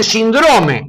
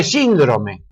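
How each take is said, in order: First: "síndrome" slowed and higher, mimicking the misplaced stress; "síndrome" mispronounced on purpose, slow; mock wrong stress. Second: "síndrome" said plainly with its correct stress; "síndrome" the right way, matter-of-fact. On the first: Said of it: "le dicen síndrome". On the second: Shown as a demonstration. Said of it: "en lugar de síndrome".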